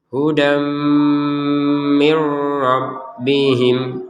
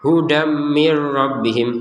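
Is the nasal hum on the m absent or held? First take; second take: held; absent. First: The m carries a held nasal hum. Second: The m has no held nasal hum. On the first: The speaker calls it right. "harus dengung" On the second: The speaker calls it wrong. "Nah ini kan nggak ada dengungannya"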